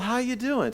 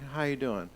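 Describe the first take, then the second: First: The greeting sounds bright and warm. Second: The greeting sounds flat and indifferent. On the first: The speaker is glad to see the person. The speaker calls it right. "the brightening of the eyes and the lifting of the head shows honor" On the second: The greeting is routine. The speaker calls it wrong. "Instead of doing that"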